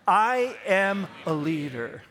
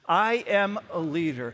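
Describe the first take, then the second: First: It is said with strong, forceful conviction. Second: It is said with mild, ordinary conviction. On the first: The speaker calls it right. "I would like just a tad more conviction" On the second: The speaker calls it wrong. "Say it with me"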